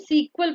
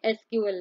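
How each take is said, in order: First: SQL is spoken as the word sequel. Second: SQL is spoken as three separate letters. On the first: The speaker calls it right. "इसे हम सीक्वल pronounce करते हैं" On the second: The speaker calls it wrong. "एसक्यूएल नहीं"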